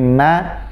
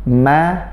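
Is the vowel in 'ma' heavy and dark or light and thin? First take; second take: light; light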